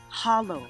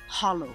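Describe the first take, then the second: First: It is said with a Gaelic pronunciation. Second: The same.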